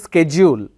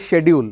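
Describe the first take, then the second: First: It is said in an American accent. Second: It is said in an Indian accent. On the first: "American English it is schedule" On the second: "but in India we say schedule"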